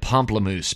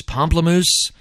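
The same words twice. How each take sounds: First: Said in the usual way. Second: Puzzled question. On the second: Real, not acted. Repeats band name incredulously.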